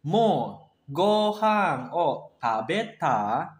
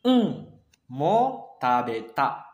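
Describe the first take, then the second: First: Very slow "Mo gohan o tabeta?", pitch rising on "tabeta"; slow casual question that goes up at the end; rising question tune. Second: Casual reply stating it, not asking; statement tune. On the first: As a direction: ask it, lifting "tabeta?" at the end. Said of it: "nadanya naik juga karena ini bertanya". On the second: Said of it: "versi casualnya itu adalah seperti ini". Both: Shown as a demonstration.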